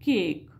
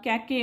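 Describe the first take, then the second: First: The word ends on a consonant, no final vowel. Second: The final vowel is pronounced as a syllable. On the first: The speaker calls it right. "ईचा उच्चार आपण करत नसतो" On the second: The speaker calls it wrong. "म्हणत नाही याला"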